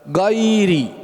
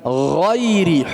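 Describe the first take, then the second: First: It starts with a plain, light g sound. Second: It starts with a thick, throaty gh sound. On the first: The speaker calls it wrong. "biasa orang baca gairi, salah" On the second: The speaker calls it right. "dari tenggorokan atas, dan huruf gha huruf yang tebal"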